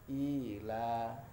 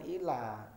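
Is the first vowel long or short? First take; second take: long; short. First: The first vowel is drawn out long. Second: The first vowel is short. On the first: The speaker calls it right. "I-nya kan panjang" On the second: The speaker calls it wrong. "Bukan ila"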